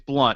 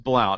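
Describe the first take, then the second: First: The vowel rhymes with 'hunt'. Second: The vowel rhymes with 'count'. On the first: This is how it is said in the South. "if you're in the South" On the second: This is how it is said outside the South. "if you're anywhere else"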